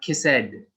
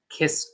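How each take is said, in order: First: The ending is said as a separate syllable. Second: The ending is a single consonant, no extra syllable. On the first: The speaker calls it wrong. "not kiss ed" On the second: The speaker calls it right. "you don't really say the E"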